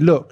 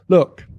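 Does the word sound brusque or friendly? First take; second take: brusque; friendly. First: The word sounds curt and brusque. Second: The word sounds soft and friendly, not rude. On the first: It comes across as rude. "it would sound kind of brusque" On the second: It is a polite way to get attention. "the way Americans say look like that in a way that doesn't sound rude"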